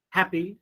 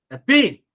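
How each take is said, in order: First: "happy" as HAP-py, first syllable stressed. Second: "happy" with "py" punched high and loud, hap-PY; mis-stress "happy" on its second syllable; wrong final stress. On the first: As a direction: model "happy" correctly with a light "py". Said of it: "you are giving stress on first syllable". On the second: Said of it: "No, not like that". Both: Shown as a demonstration.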